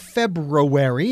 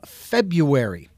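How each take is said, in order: First: The first R is pronounced: Feb-ru-ary. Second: The first R is dropped: Feb-u-ary.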